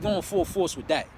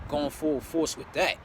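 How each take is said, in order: First: Said in the usual way. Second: Drawn out x0.7 repetition; slow emphatic repeat. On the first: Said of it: "repeats phrase". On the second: Real, not acted. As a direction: stretch each word for weight. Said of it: "repeats phrase, slower".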